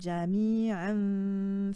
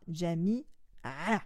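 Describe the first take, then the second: First: The final n is softened and nasalized. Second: The final n sound is dropped entirely. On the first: The reading continues into the next word. "le son N du tanwin, donc jami'an, va être atténué et on va avoir une nasalisation, ça va sortir par le nez" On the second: The reader pauses after this word. "vous ne prononcerez pas du tout le tanwin, il va disparaître"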